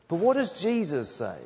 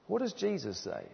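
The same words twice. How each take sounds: First: Said in the usual way. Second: Much softer, higher-pitched echo of the question; hushed repeated question. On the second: Real, not acted. Preacher repeats his question to the congregation, hushed. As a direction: drop the volume right down to repeat it.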